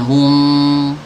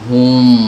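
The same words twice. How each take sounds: First: The syllable is said with a light, thin sound. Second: The syllable is said with a heavy, dark sound. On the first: The speaker calls it right. "beda dengan hum, tipis ya" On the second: The speaker calls it wrong. "tebal suaranya"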